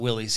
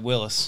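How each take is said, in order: First: The name ends with an 'eez' sound. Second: The name ends with a short 'is' sound. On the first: This is how people commonly say it now. "everybody calls it Willie's these days" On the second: This is the original family name. "was the last name"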